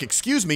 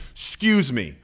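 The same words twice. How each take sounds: First: Said in the usual way. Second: "excuse me" lower and firm, with command; authoritative excuse me. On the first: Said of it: "So it's not just like". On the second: Shown as a demonstration. Speaker asserting authority with hand out, firm excuse me. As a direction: cut them off with a firm "excuse me".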